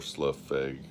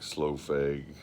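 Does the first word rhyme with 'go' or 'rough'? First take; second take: rough; go. First: The first word rhymes with 'rough'. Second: The first word rhymes with 'go'. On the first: This is how the spelling suggests it. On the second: This is how most people say it.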